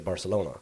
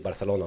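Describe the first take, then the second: First: It is said in a typical English accent. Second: It is said in a local Spanish-like way. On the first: Most English speakers say it this way. "most English people they say Barcelona" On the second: The speaker picked it up while living there. "that is how I say Barcelona now in in English"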